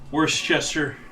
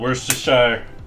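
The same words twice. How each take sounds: First: The word is said carefully, built on 'Worcester'. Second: The word is said casually, without careful attention. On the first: The speaker calls it right. "I think of it as Worcester, as in the location in the U K. It's how I try to pronounce it" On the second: The speaker calls it wrong. "I probably mispronunciate"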